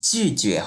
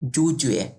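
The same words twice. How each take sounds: First: The vowel after j is a fronted ü. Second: The vowel after j is a plain u. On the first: The speaker calls it right. "যে ইউ থাকলে জিউ হয়ে যায়, জিউ, জুজুয়ে হবে এটা" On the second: The speaker calls it wrong. "অনেকে এটা এভাবে উচ্চারণ করে জুজুয়ে, এটা কিন্তু ভুল"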